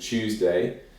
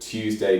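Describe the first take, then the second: First: The T and y merge into a ch sound. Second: The T is followed by a separate y sound. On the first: This is the modern way. "you'd turn the T into a ch sound" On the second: This is the traditional way. "it's the traditional way to say it"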